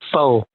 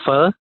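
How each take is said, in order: First: It is said with an anglicized pronunciation. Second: It is said with the Vietnamese pronunciation. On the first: The speaker calls it wrong. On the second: The speaker calls it right. "in Vietnamese we call it pho"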